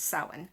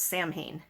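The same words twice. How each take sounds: First: The word is pronounced unlike its spelling. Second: The word is pronounced the way it is spelled. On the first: The speaker calls it right. "but it's Samhain" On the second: The speaker calls it wrong. "they think it's pronounced Samhain"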